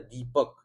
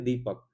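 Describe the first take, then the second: First: The first vowel is held long. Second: The first vowel is short and quick. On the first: "तो दी पे focus होगा यहाँ" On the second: "तो इस पे focus नहीं"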